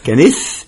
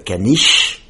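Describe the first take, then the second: First: The final sound is lisped, close to 's'. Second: The final sound is a clear 'sh'. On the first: "But they say, do you know what a canis?" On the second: "In French, we say a caniche"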